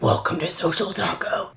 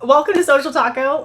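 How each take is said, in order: First: It is said in a gravelly Batman voice. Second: It is said in her normal voice.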